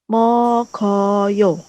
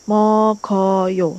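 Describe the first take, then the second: The two takes are said the same way.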